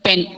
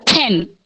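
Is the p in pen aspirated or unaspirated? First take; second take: unaspirated; aspirated. First: The p is released with no strong puff of air. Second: The p is released with a strong puff of air. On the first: The speaker calls it wrong. "and not pen" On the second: The speaker calls it right. "it has to be pen"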